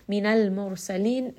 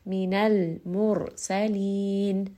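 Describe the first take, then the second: First: Said in the usual way. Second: Minal mursalin very slow, resting on the lam and the ra; resting on letters. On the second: Shown as a demonstration. Teacher showing students how to rest on tawassut letters, very slow. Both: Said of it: "rest on all of these letters of tawassut".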